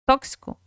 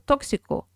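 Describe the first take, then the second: First: The syllables after the stress are weak and reduced. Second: Every syllable is pronounced clearly and fully. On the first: This is how Brazilians say it. "nosotros decimos tóxico" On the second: This is how Spanish speakers say it. "Pronuncian clarito"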